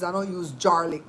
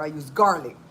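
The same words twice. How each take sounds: First: "garlic" starting with a J sound, like jar; garlic as jarlic. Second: Said in the usual way. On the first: Retold or imitated. Quoting another creator on jarred garlic, "garlic" pronounced jarlic. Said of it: "in the jar". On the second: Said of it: "She says".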